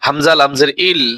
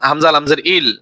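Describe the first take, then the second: No difference in how they are said.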